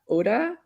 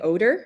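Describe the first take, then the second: First: The final R sound is dropped. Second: The final R sound is strongly pronounced. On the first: The speaker calls it right. "in German it wasn't pronounced" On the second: The speaker calls it wrong. "really pronouncing that R"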